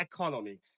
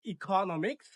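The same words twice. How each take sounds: First: "ইকোনমিক্স" as eh-ko-NO-miks; second pronunciation. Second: "ইকোনমিক্স" as ee-KO-no-miks; first pronunciation. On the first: Teacher gives the next option, "ইকোনমিক্স" pronounced eh-ko-no-miks. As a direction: open "ইকোনমিক্স" with an eh sound, falling. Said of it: "পরের ওয়ার্ডটি হচ্ছে". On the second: Teacher gives the first option, "ইকোনমিক্স" pronounced ee-KO-no-miks. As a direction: open "ইকোনমিক্স" with an ee sound. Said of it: "প্রথমটি রয়েছে". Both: Shown as a demonstration.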